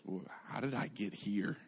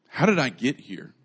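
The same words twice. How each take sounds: First: Hushed inner monologue, very soft; thinking to himself. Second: Baffled repeat with a jump on "How"; bewildered self-questioning. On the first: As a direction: murmur it privately, as if lost in thought. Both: Retold or imitated. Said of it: "he's just thinking to himself".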